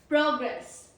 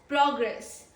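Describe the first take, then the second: Both takes have the same delivery.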